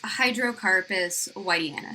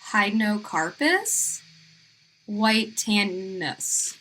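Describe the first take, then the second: First: The name is said firmly and confidently. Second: The name is said tentatively and unsurely. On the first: "just sound very confident" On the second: "I think it's"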